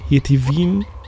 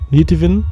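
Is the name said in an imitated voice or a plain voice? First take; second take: plain; imitated. First: The name is said in a plain, ordinary voice. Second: The name is said in a put-on imitated voice.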